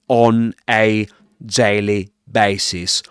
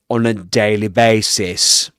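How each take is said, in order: First: Each word is said separately with small breaks. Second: The words run together smoothly without breaks. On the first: The speaker calls it wrong. "rather than" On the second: The speaker calls it right. "try to connect words"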